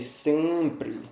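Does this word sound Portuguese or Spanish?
Portuguese. It is said with a Portuguese-like pronunciation. The speaker calls it right. "é sempre"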